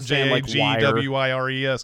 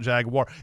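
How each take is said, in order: First: The last syllable sounds like 'wires'. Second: The last syllable sounds like 'war'. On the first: The speaker calls it wrong. "it's not spelled Jaguires" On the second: The speaker calls it right. "It's spelled Jaguar"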